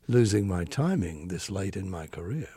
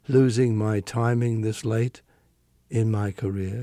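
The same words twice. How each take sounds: First: It follows the phrasing of ordinary speech. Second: It follows the phrasing singers usually give it. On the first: The speaker calls it right. "You would say" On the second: The speaker calls it wrong. "would you say it that way?"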